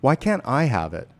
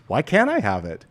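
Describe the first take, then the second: First: Can't sagging, a falling defeated line; deflated. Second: I lifted with interest, a question full of possibility; curious, open reading. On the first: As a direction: say it like you've given up. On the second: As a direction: ask it as if the answer could be yes. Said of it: "The other one is going to say it like this". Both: Shown as a demonstration.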